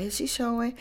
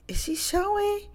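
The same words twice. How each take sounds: First: Said in the usual way. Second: High-pitched "Is she showing?" rising in curiosity; high curious question. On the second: Retold or imitated. Gossiping friend at lunch table asks, high and nosy.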